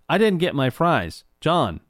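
The name sounds cut off and stuck on.

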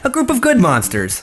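It is read in a lively, upbeat tone.

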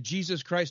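The name is said calmly and reverently. The name is addressed in prayer. "One was reverently"

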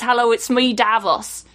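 It is said in a Yorkshire accent.

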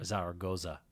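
The name is said with English pronunciation.

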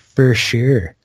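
The vowel in sure is stretched and overemphasized. "we'll say for sure"

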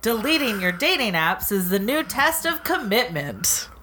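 The line is read in a put-on announcer voice. "what's an announcer voice?"

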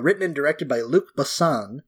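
Luc Besson is said with an English accent.

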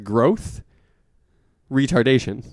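There is a pause between the two words. It sounds like two separate things. The speaker calls it wrong.

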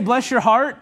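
It is said sincerely and warmly.

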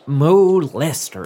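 The name is said with a British pronunciation. The speaker calls it right. "how would we say it?"

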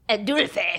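It is said in a put-on French accent.

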